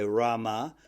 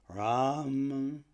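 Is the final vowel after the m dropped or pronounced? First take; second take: pronounced; dropped. First: The word ends with a full final vowel. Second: The word ends on a swallowed m sound. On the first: The speaker calls it wrong. "You don't say Rama" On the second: The speaker calls it right. "you say Ram. Swallow the other one"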